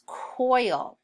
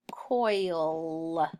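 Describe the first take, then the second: First: Said in the usual way. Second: "Coil" drawn out with a lingering l; blended sounds. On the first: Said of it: "Number two is coil". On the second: Shown as a demonstration. Teacher blending coil for pupils, drawn out. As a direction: stretch the oi and l of "Coil". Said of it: "O I says oi".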